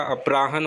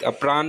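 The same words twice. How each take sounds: First: अपराहन said as "apraahan", h sounded; correct pronunciation. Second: अपरान said as "apraan", h left out; wrong pronunciation. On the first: Teacher correcting to अपराहन, pronounced "apraahan". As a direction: add a clear "han" to end अपराहन. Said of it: "अपराहन होता है". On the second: Teacher showing the mistaken अपरान, said as "apraan". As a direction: drop the h from the end of अपरान. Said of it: "अपरान नहीं होता". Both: Shown as a demonstration.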